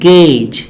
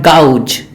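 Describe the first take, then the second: First: The vowel sounds like 'ay'. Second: The vowel sounds like 'ow'. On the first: The speaker calls it right. "the A U sound is, it is pronounced as E sound" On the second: The speaker calls it wrong. "not gouge"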